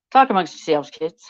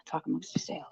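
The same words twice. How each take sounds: First: Louder, leaning into the hammed-up catchphrase. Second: Unvoiced whisper, pleading softly. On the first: Streamer stalling chat, hammed-up and louder. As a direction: boom it out to the room. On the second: Streamer begging chat to wait, whispering. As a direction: lean in and whisper the plea. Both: Real, not acted.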